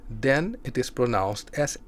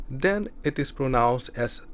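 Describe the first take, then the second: Both takes have the same delivery.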